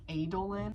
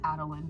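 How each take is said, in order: First: The name is given an elaborate, overcomplicated pronunciation. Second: The name is given a plain, simple pronunciation. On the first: The speaker calls it wrong. "it's gonna be super complicated to pronounce" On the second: The speaker calls it right. "it's just Adolin"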